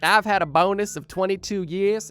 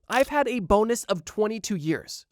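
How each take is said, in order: First: It is said in a put-on Australian accent. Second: It is said in the speaker's normal accent.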